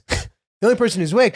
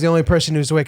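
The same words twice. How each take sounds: First: It is said in a loud, aggressive tone. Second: It is said in a gentle, polite tone. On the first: The speaker is mocking the remark with hostility. "The tone was exactly how I just said it. ... It was just so aggressive" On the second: The speaker is apologizing in a friendly way. "very politely and in a bond, almost in like a bonding kind of way"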